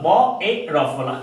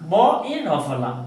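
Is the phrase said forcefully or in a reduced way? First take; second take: forcefully; reduced. First: It is said fully and with force. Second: It is said in a reduced, lighter way.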